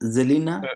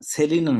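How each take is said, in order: First: The name begins with a z sound. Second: The name begins with an s sound. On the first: The speaker calls it right. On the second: The speaker calls it wrong. "সেলিনা না"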